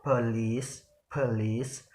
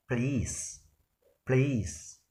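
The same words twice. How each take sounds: First: Police said as "po-lice" with a clear first vowel; full police. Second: Police said as "please", the first vowel dropped. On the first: Teacher showing the original pronunciation carefully. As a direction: sound out po-lice, both syllables. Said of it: "we will pronounce it as police". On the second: Teacher demonstrating the deleted vowel, quietly. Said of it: "we omit the word a after p sound". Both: Shown as a demonstration.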